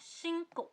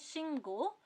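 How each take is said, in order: First: The second consonant is a tense k. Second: The second consonant is a plain g. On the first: "पढ़ते हैं शिंको" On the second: "लिखते हैं शिंगो"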